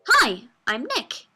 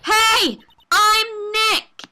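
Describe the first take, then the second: First: It is said softly, not loud enough. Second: It is said loudly.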